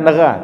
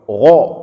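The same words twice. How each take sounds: First: The gh sound is thin and light. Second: The gh sound is thick and heavy. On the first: The speaker calls it wrong. "bukan gha" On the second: The speaker calls it right. "tapi gha, tebal"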